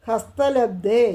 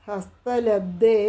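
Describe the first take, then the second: No difference in how they are said.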